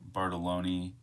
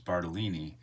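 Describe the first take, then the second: First: The second-to-last syllable has an 'o' vowel. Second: The second-to-last syllable has an 'i' vowel. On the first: The speaker calls it wrong. "I don't say it right" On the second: The speaker calls it right. "It is Bartolini"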